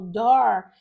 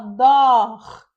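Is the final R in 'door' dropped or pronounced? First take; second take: pronounced; dropped. First: The final R sound is clearly pronounced. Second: The final R sound is dropped. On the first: It is easier with the speaker's own R. "que para mim é mais fácil por causa do meu R" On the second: It sounds like British English. "ele falou inglês britânico"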